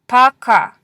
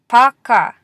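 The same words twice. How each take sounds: Both takes have the same delivery.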